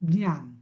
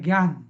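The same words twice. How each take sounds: First: It begins with a palatal j-like sound. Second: It begins with a g sound, like gyan. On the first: The speaker calls it right. "दातांच्या वरची जी जागा आहे ना, त्याला लावून म्हणायची" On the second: The speaker calls it wrong. "हिंदीवाल्याचा तर अजूनच गोंधळ आहे. ते करतात जीवाय"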